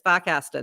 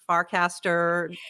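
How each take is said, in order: First: It is said without R sounds, Boston style. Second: It is said with the R sounds pronounced.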